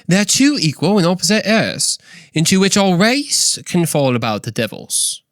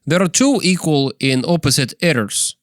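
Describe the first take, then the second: First: High, theatrical British accent; C S Lewis impersonation. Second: Put-on Russian accent. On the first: Podcaster retries the quote as its author, British accent. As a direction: read it out in a hammed-up British accent. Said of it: "with my best C S Lewis impersonation". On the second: Podcaster rereads the quote to be understood, Russian accent. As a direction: read it with a mock Russian accent. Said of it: "in a Russian accent". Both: Shown as a demonstration.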